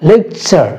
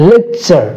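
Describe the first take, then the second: Both takes have the same delivery.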